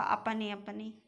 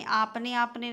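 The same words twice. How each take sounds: First: अपने said with a short "uh" at the start; correct short a. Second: आपने said with a long open "aa" at the start; wrong long a. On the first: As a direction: say अपने with a short first vowel. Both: Shown as a demonstration. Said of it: "आपने आपने नहीं होता".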